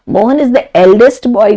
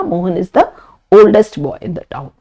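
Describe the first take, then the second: First: Said in the usual way. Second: Oldest said slowly and clearly; teacher's slow model sentence; slow correct form. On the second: Shown as a demonstration. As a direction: spell out the right sentence slowly. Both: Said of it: "बोलना गलत रहेगा".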